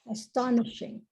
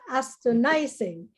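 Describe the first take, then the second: First: The ending is said with a sh sound. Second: The ending is said with a z sound. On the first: The speaker calls it right. "so it should be sh. It's not z" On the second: The speaker calls it wrong. "So it's not astonishing"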